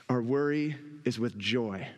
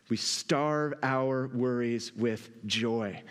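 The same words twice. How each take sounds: First: Said in the usual way. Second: Slow emphatic restatement. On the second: Real, not acted. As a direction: lower and slow, weighing each word. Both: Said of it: "Another way that we starve".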